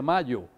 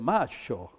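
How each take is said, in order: First: The word is said in a neutral accent. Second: The word is said in an Argentine accent. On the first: "él no dice mayo" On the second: "sino que dice macho"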